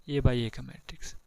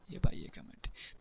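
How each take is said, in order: First: Soft, drawn-out repeat. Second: Whispered repeat. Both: Shown as a demonstration. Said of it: "A by ए का matrix क्या बोल रहा है".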